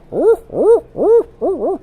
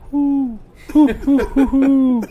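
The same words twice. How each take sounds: First: A much higher, convincing owl call; good owl hoot. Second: Imitating a buddy's lame owl call, high and laughing; a clumsy, giggly hoo hoo that fails; bad owl hoot. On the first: Shown as a demonstration. Showing his buddy how a proper owl hoot goes, high owl call. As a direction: hoot it like a real owl in the woods. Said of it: "that sounds like an owl". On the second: Retelling how his buddy botched the owl call, mock bad hoot. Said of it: "Dude, that really sucked".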